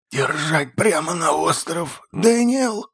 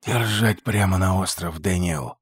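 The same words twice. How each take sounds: First: High, breaking urgent whisper; urgent backstage whisper. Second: Said in the usual way. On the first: A narrator's reading. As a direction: hiss the order with a cracking voice. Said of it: "срывающимся шёпотом скомандовал". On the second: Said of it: "я услышал его голос".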